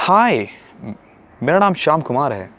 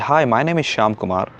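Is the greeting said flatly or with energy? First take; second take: energetic; flatly. First: It is said with full energy and enthusiasm. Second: It is said plainly, without much energy.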